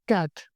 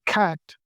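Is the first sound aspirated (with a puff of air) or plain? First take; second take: plain; aspirated. First: The first k sound is plain, without a breath puff. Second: The first k sound is aspirated with a breath puff.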